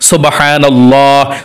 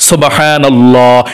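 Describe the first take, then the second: No difference in how they are said.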